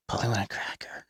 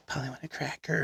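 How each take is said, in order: First: Breathy whispered quote from behind. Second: Soft retold whisper, barely voiced. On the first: Retold or imitated. Girl in Walmart whispering behind him, hushed whisper. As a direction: whisper it like a creepy stranger. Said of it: "walks up and whispers". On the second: Girl whispering behind him at the store, quiet whisper. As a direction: hush it like a stranger sneaking up. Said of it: "whispers behind me".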